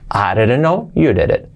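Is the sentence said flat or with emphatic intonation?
flat. It is said flat, without added emphasis.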